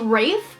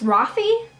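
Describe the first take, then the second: First: The name is said as one syllable. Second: The name is said as two syllables. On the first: The speaker calls it wrong. "I'm saying it wrong" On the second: The speaker calls it right. "but it's Rafi"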